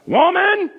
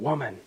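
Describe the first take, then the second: First: It is said harshly, as a rebuke. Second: It is said gently and tenderly.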